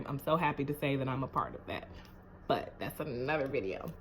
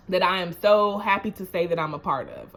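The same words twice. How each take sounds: First: Much softer, fast murmured repeat; quick aside. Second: Said in the usual way. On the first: Shown as a demonstration. Repeating her pride to viewers, softly and fast. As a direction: toss it off under your breath.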